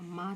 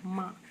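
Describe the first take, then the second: First: माँ as maa, purely oral vowel; denasalised माँ; wrong, without nasal. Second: माँ with a nasalised vowel; nasal maan sound in माँ; correct, with nasal. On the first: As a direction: drop the chandrabindu nasal from माँ. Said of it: "माँ तो नहीं होता है". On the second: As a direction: let the vowel of माँ ring through the nose. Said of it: "क्या होता है". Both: Shown as a demonstration.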